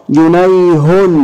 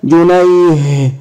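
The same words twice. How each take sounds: First: جنيه drawn out as "junay-hun"; linked-form جنيه, sounding the whole ending; voweled ending. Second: جنيه ending in a breathed h; stopped with sukun. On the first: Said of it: "هنشكلها مرة". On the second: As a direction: say جنيه as "junayh", no final vowel. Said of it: "طب سكن". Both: Shown as a demonstration.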